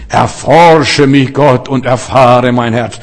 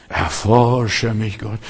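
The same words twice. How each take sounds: First: Slow, drawn-out devout praying voice; pious prayer. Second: Very slow, low and soft, mimicking a sufferer; subdued, strained prayer. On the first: Acted. Preacher mimics a devout believer asking God to search him, piously. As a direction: pray it with exaggerated piety, each word stretched. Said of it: "So fromm kann nur ein Frommer beten". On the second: Believer prays while God operates on the heart, weakly and haltingly. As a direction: drag the prayer out feebly, as if under the knife. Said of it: "Aber wenn es darauf ankommt nachher".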